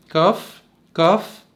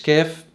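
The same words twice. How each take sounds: First: كاف with a darker, backed aa; slightly heavy kaf. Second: كاف with a thin fronted vowel, like kæf; light Arabic vowel in كاف; Arabic kaf. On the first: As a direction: say كاف thicker, as kaaf with open back vowel. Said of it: "مفخم شوية عن اللغة العربية". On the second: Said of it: "مش كاف". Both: Shown as a demonstration.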